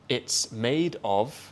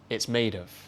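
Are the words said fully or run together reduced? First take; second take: fully; reduced. First: The words are said fully and separately. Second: The words run together in reduced form.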